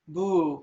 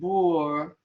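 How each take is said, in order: First: It ends in a long oo vowel. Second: It ends with an added r sound. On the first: "Boo with a long oo" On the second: "it becomes Boor because of the Visarga change"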